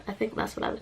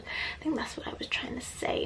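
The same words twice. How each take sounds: First: Said in the usual way. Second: Whispered repeat. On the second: Real, not acted. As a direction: breathe it out, no voice.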